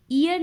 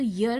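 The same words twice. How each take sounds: First: ईयर opened on a clear "ee" vowel; wrong pronunciation demo. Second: ईयर said as "yer", starting on a y-glide; correct pronunciation demo. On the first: Teacher showing students how it is not said, ईयर with leading "ee". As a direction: say ईयर as "ee-yer", starting with a long ee. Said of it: "ईयर नहीं कहा जाता है इसको". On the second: Teacher showing students how it is said, ईयर as "yer". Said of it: "ईयर कहा जाता है". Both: Shown as a demonstration.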